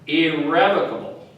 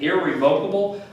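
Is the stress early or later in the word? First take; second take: early; later. First: The first two syllables are emphasized. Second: The first two syllables are not emphasized. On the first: "the first two syllables, syllables are emphasized" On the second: "instead of pronouncing it irrevocable"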